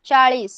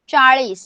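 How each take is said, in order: Both takes have the same delivery.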